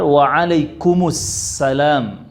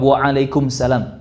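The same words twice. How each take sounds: First: An 'us' sound links into a doubled s. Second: Salam follows directly with no linking 'us' sound. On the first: The speaker calls it right. "Yang benar waalaikumsalam, karena ada alif lam syamsiah di situ" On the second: The speaker calls it wrong. "Banyak yang langsung jawab waalaikumsalam"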